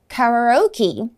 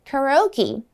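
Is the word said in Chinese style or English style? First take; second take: English style; English style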